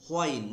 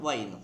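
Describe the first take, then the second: First: "whine" with a breath h before the w; shown pronunciation. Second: "whine" with a bare w, like wine; wrong pronunciation. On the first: Teacher naming the mosquito's sound, "whine" pronounced hw-ain. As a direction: say "whine" as hwain. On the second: Teacher warning against a mistake, "whine" pronounced like wine. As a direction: say "whine" as wain, dropping the h. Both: Shown as a demonstration. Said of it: "not whine".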